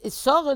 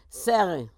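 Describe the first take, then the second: First: The name has a Yiddish pronunciation. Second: The name has a plain English pronunciation. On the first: The speaker calls it wrong. "Sarah they would say in Yiddish" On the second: The speaker calls it right. "instead of saying Sarah or Sarah"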